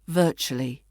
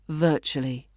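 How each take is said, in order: No difference in how they are said.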